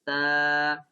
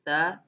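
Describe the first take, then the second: First: The vowel is drawn out long. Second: The vowel is short.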